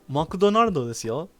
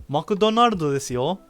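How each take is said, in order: The two takes are said the same way.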